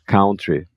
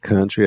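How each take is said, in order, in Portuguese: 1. A primeira vogal soa como 'ow'. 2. A primeira vogal soa como 'uh'. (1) "É um erro comum é a pessoa achar que é country" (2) "aqui é um somzinho de A"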